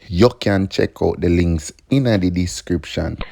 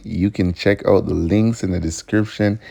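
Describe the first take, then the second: First: Put-on light Jamaican accent. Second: Said in the usual way. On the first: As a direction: say it with a Jamaican lilt. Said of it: "in my Jamaican accent".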